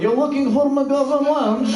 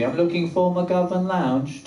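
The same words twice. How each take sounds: First: High, slow mock Russian accent. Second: Slow, badly faked British accent. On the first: Campus lady checks what the driver wants, in a Russian accent. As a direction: question it back in thick Russian. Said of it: "This lady was legitimately Russian". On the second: Asking a lady on campus for directions, in a fake British accent. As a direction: stretch it out in put-on polite British. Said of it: "gonna use a British accent".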